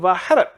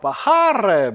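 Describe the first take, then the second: First: The last vowel is short and plain. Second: The last vowel is drawn out longer. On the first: The speaker calls it wrong. "이렇게 얘기하지 않고" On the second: The speaker calls it right. "이런 식으로 해가지고 좀 더 길을 길게 해주고 끝내주는 느낌으로"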